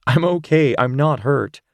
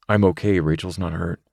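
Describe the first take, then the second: First: Calm him down, she's unhurt; Rachel reassuring. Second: Said in the usual way. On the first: Acted. Rachel comforts Zane.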